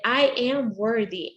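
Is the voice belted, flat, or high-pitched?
high-pitched. It is said with raised pitch and a smile. The speaker is open to receive. The speaker calls it right. "you raise the pitch in your voice. You say it with a smile"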